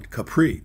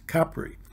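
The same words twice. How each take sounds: First: The word is said the common American way. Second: The word is said the local Italian way. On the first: The speaker calls it wrong. "we had pronounced it like most American" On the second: The speaker calls it right. "we were told that the way to pronounce it is"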